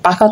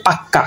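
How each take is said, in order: First: Said in the usual way. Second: পাক্কা with a long, doubled k; doubled consonant. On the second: Shown as a demonstration. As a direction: hold the k closure in পাক্কা, then release. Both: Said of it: "কিছু কিছু ব্যঞ্জনের যে দুইবার উচ্চারণ হয়".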